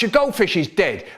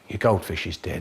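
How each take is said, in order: First: It is shouted loudly. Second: It is said very quietly.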